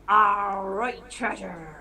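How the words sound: It is said in a pirate voice.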